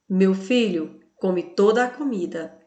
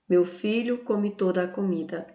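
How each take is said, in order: First: There is a pause after "Meu filho". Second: It flows on without a pause after "Meu filho".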